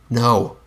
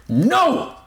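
First: Said in the usual way. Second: High, desperate yell; shouted back. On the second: A narrator's reading. Narrator shuts out the monster's urging, shouting back. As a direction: shout it out to silence him. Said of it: "shouted back".

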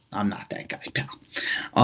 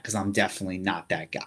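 First: Breathy mock-menacing whisper. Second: Said in the usual way. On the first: Podcaster to listeners, whispering the line again. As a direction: hush it like a private threat.

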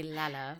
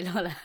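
First: Said in the usual way. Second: "Lala" with an American rounded "law" vowel; American pronunciation. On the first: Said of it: "I'll say Lala". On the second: Shown as a demonstration. Granting the co-host their version of Lala, American pronunciation. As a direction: say "Lala" as "Lawla", American style. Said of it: "said it in American way".

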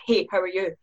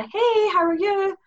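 First: Said in the usual way. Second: High, slow sing-song "Hey, how are you?"; bright cheery greeting. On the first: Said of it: "you do read it in that". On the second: Shown as a demonstration. Guest showing the friendly tone texts lose, high and slow. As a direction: chirp it high and sweet. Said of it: "tone you can't get off".

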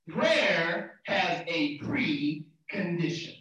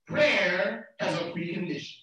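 First: "Prayer has a precondition" spelt out very slowly; slow emphasis. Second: Said in the usual way. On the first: Real, not acted. Preacher repeating first P for note-takers, slow emphasis. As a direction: stretch "precondition", parting "pre" from "condition".

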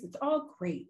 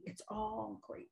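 First: Said in the usual way. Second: Soft echo. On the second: Shown as a demonstration. Repeats phrase, second take hushed.

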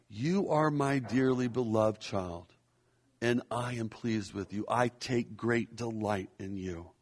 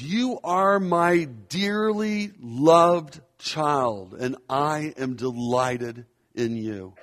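First: Softer reflective repeat. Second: Slow proclamation. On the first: God's words repeated gently. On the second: God's words proclaimed to listeners. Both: Acted.

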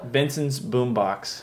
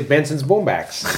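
First: "Benson's Boombox" slow and soft with a clear "box"; careful real "Boombox", slow and quiet. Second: "Boombacks" with a flat a, slow, laughing; teasing copy of "Boombacks", slow; imitating his vowel. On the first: Shown as a demonstration. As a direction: plainly pronounce "Boombox" with an ah sound. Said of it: "How do you say it for real?". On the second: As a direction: mimic him saying "Boombacks" instead of "Boombox". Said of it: "You say".

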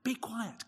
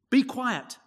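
First: Softer, hushed rebuke; Jesus' rebuke repeated in a soft, firm voice; quiet stern command. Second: Loud, higher stern rebuke; Jesus silencing the demon, loud and stern; stern command. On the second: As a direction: bark it out as a stern order to silence him. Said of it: "said Jesus sternly". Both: Acted.

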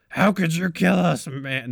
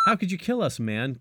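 First: Slow, louder, higher attempt at Seth Rogen; bad Seth Rogen impression. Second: A high, lightly spooky ghost line; ghostly Dale voice. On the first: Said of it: "that's like a bad Seth Rogen". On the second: Acted. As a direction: play a wistful ghost asking why, pitched up. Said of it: "Ghostly Dale says".

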